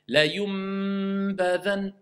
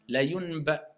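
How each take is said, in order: First: A clear, deliberate m is said before b. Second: The n runs into b, sounding like m. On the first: The speaker calls it right. "on transforme le nun en mime" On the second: The speaker calls it wrong. "même si je veux prononcer le nun, la yunba, l'enchaîner avec le ba, on entend un mime"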